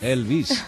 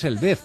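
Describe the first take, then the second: First: The name is pronounced with English sounds. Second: The name is pronounced with Spanish sounds. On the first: "si lo pronuncias en inglés" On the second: "En español es Elvez"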